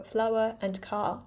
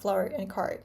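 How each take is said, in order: First: "flower and car" with both final Rs dropped; non-rhotic. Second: "flower and car" with both final Rs sounded; rhotic R. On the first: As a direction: say "flower and car" British-style, ending on open vowels. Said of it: "So I prefer". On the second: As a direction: say "flower and car" American-style, curling the Rs. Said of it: "not flower and car". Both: Shown as a demonstration.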